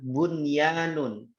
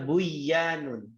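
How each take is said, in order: First: The n sound is kept before the y. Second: The n sound is merged into the y. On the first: The speaker calls it right. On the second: The speaker calls it wrong.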